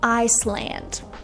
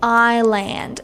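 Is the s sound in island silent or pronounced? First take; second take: pronounced; silent. First: The s sound is pronounced. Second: The s sound is silent. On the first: "and not Iceland" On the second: "why do we have to say island"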